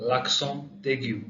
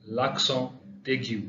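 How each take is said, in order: First: L'accent aigu drawn out very slowly in French; slow French model. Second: L'accent aigu repeated even slower, falling; slow French repeat. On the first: Teacher models the French term, very slow. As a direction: stretch every sound of l'accent aigu. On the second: Teacher repeats the French term, very slow. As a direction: drag out l'accent aigu once more. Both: Shown as a demonstration. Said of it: "acute accent".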